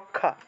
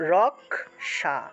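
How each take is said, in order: First: The middle cluster sounds like a doubled kh. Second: The middle cluster sounds like k plus sh. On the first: This is the Bengali pronunciation. "বাংলায় যদি বলি তাহলে আমরা বলে থাকি যে রক্ষা" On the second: This is the Sanskrit pronunciation. "ক উচ্চারিত হবে তারপরে স উচ্চারিত হবে"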